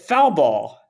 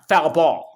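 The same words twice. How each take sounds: First: One word is stressed more than the other. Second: Both words are stressed equally. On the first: Someone unfamiliar with baseball said it. The speaker calls it wrong. "he pronounces it foul ball" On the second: Someone familiar with baseball says it. The speaker calls it right. "both both words are em- emphasized equally"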